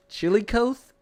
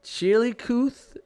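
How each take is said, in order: First: Chillicothe said as chilly-COATH, high and loud; long O in the last syllable of Chillicothe, rising; trying a pronunciation. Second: Chillicothe said as chilly-COOTH, high and loud; trying a pronunciation. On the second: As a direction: slowly sound out Chillicothe with an OO in the last syllable. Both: Shown as a demonstration. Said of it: "making up these names now".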